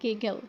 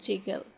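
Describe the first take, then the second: First: The word begins with a hard g sound. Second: The word begins with a j sound. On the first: The speaker calls it right. "that is giggle" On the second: The speaker calls it wrong. "that is not jiggle"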